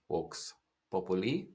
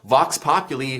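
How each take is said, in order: First: The first word starts with a W sound. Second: The first word starts with a V sound. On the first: The speaker calls it right. "in Latin, there's no V sound ... is the correct pronunciation in Latin" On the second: The speaker calls it wrong. "People say"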